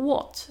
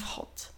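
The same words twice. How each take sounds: First: It starts directly with a w sound. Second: An audible h is pronounced with the w. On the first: The speaker calls it right. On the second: The speaker calls it wrong.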